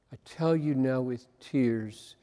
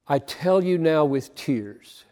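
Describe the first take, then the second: First: Much softer and lower, almost breaking; hushed, tearful repeat. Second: Said in the usual way. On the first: Shown as a demonstration. Preacher repeating Paul's words to his congregation, softly and tearfully. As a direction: let the words sink into a soft, tearful hush. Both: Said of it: "could not get away from".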